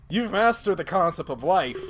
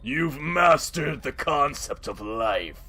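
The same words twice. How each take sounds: First: It is said in a plainer, ordinary voice. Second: It is said in a put-on character voice.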